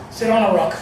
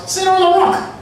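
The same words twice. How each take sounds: First: Said in the usual way. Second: High, loud barked order; mock yelled instruction; retold shouting. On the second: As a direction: shout it as a command. Workers ordering them to sit.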